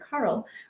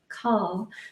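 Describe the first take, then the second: First: The name is said with an R sound. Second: The name is said without an R sound. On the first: This is how it is said in America. "in America we, we use that R sound" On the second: This is how it is said in Australia. "in Australia they say Carl"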